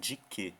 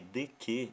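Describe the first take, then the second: First: The first word ends in an i sound. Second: The first word ends in an open e sound. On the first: "ele fala assim, de que" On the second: "em vez de ficar de, de que"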